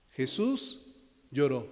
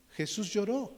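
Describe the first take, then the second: First: Each word set apart, Jesús rising then lloró falling; emphatic verse. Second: Said in the usual way. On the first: Shown as a demonstration. Preacher teaching the short verse, slow and separated. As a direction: let the pause hang between Jesús and lloró. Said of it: "¿Ya se lo aprendieron?". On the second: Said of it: "Muy rápido de aprender".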